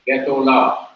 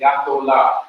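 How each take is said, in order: First: The first vowel is a short reduced sound. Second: The first vowel is a full open a. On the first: The speaker calls it right. "you just hurriedly pronounce Getholah" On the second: The speaker calls it wrong. "You don't say Gatolah"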